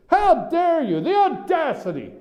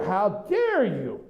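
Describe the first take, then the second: First: High-pitched, hammed-up indignation; mock outrage. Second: Mock outrage. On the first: Host mimicking press elite affronted by newcomers, mock outrage. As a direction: act scandalized, voice leaping high. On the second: Mimicking the offended press elite.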